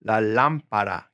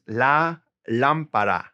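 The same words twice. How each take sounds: First: "La lámpara" repeated, "lám" clearly stressed; "La lámpara" again, hitting "lám"; stress first syllable. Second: "la lámpara" slowly, with the stress on "lám"; "la lámpara" with a lean on the first syllable. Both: Shown as a demonstration. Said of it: "Gotta stress that first syllable".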